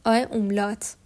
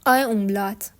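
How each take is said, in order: Both takes have the same delivery.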